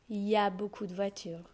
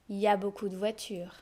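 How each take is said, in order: First: The opening il is left out. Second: The same.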